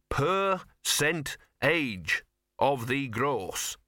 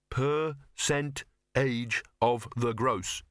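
First: Each syllable spelled out slowly; slow careful teaching. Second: Slow rote repetition, a bit unsure; slow careful repeat. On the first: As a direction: dictate it slowly for a learner. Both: Shown as a demonstration. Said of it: "Think you can remember it?".

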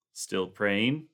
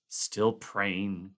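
First: Said in the usual way. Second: Groaned. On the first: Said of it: "MacReady asked". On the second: Acted. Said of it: "Clark groaned".

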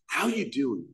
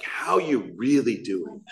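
First: Imitating an overfriendly greeter, fairly soft; mock in-your-face greeting. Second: Slow, drawn-out stress on "really"; mock in-your-face greeting. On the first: Imitating members greeting a newcomer, mock over-friendly. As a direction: mimic a pushy hello without shouting. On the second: Imitating members pressing a newcomer, slow mock concern on "really". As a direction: stretch "really" like an overbearing greeter. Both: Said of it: "like, in your face".

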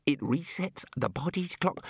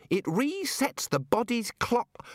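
First: Controlled recovery. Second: High, slow squeak; straining child voice. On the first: Wizard regains control of his explanation, restrained voice. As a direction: settle back toward a composed adult tone. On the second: Child-sized wizard struggles to explain, high drawn-out squeak. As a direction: force the words out in a small child's voice. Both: A narrator's reading.

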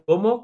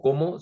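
First: "¿cómo?" with a sharp high rise; question cómo. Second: "¿cómo?" meaning I eat, said as a plain statement; verb como. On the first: Explaining the difference to the learner: "¿cómo?" as a high rising question. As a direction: ask "¿cómo?" as a real question, pitch leaping up. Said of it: "como pregunta". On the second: Explaining the difference to the learner: "¿cómo?" as I eat, a plain statement. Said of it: "si estoy comiendo". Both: Shown as a demonstration.

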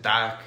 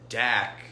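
First: "Dak" in a light Russian accent, a hint louder. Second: Said in the usual way. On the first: Shown as a demonstration. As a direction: say "Dak" like a Russian saying yes. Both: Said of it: "or if you say in a Russian accent".

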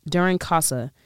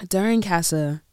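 First: "Casa" with an open back vowel as in "father"; broad "ah" in the first syllable of "Casa". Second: "Casa" with the front vowel of "cat"; short "a" in the first syllable of "Casa". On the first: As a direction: say "Casa" with a long "ah", CAH-suh. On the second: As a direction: say "Casa" as CASS-uh. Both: Shown as a demonstration. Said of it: "I don't know how they say it".

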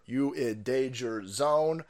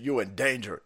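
First: "You in danger zone" stretched slow, each word held; slow drawn-out. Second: Said in the usual way. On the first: Shown as a demonstration. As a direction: drag it out like a song hook.

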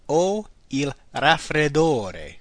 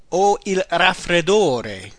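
First: Very slow, deliberate repeat. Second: Slow, careful model phrase. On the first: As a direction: drag it out so learners can follow. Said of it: "I have a cold". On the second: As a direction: give the learner every syllable. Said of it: "The next one is". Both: Shown as a demonstration.

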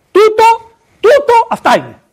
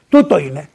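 First: "Τούτο" thrown up very high and loud; "τούτο" repeated, leaping much higher and louder; emphatic repeat. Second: Said in the usual way. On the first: Shown as a demonstration. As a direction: hammer "τούτο, τούτο" as the point.

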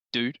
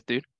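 First: Said in the usual way. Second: Bad American accent. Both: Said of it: "I'm gonna do a bad American accent now".

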